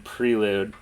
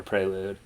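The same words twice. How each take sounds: First: Prelude with a long ee first; Prelude, first syllable rhyming with "free"; pronounced PREE-lude. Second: Prelude with an ay first; Prelude, first syllable rhyming with "day"; pronounced PRAY-lude. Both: Shown as a demonstration. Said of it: "pronounce that word".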